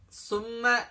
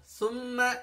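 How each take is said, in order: No difference in how they are said.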